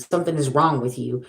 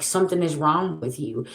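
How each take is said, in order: First: Said in the usual way. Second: Quiet firm verdict. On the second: Real, not acted. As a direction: say it softer, as a settled verdict. Repeats verdict, softer.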